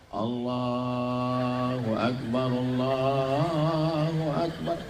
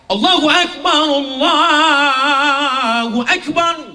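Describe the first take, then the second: First: The call is weak and half-hearted. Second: The call is loud and strong.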